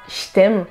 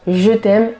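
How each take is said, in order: First: 'Je' is said with a voiceless 'sh' sound. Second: 'Je' is said with a voiced 'zh' sound. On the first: The speaker calls it wrong. "et non pas" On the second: The speaker calls it right. "on dira je t'aime"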